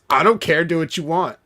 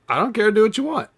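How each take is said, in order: First: It is said in a rude, annoyed tone. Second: It is said in a casual, easygoing tone.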